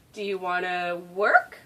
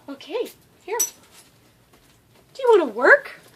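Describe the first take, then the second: First: Said in the usual way. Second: High, loud excited dog talk. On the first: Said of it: "every time I say". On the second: Real, not acted. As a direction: pump up your dog to work. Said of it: "annoying high-pitched baby voice".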